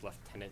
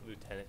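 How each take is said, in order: First: The word is said with a British pronunciation. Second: The word is said with an American pronunciation. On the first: The speaker calls it right. "This is a British game, of course it's gonna be Lieutenant" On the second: The speaker calls it wrong. "not Lieutenant. Lieutenant sounds like going to loot"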